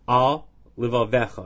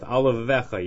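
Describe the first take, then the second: First: A short break separates the two words. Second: The two words run together without a break. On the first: The speaker calls it right. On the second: The speaker calls it wrong.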